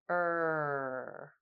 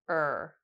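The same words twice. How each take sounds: First: The vowel is held for about one second. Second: The vowel is said briefly at natural length. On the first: "then one second" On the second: "we'll say it naturally"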